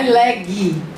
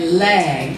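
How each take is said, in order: First: An extra vowel sound follows the final g. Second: The word ends cleanly on the g sound. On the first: The speaker calls it wrong. "Não é leg" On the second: The speaker calls it right. "É leg"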